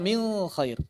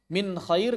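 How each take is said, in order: First: The n sound before kh is blurred. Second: The n sound before kh is said clearly. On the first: The speaker calls it wrong. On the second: The speaker calls it right.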